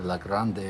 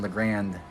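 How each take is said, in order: First: "La Grande" said as lah GROND, open a, French-style; French-style pronunciation. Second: "La Grande" said as luh GRAND, English a as in hand; local pronunciation. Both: Shown as a demonstration. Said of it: "not right way to pronounce that".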